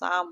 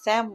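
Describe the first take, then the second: First: The vowel sounds like the vowel in father. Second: The vowel sounds like the vowel in cat. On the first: The speaker calls it right. "আমরা সাম বলবো, কারণ আমরা জার্মানিতে শিখেছিলাম এটার উচ্চারণ আয়ের মতো" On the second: The speaker calls it wrong. "আমরা স্যাম বলবো না"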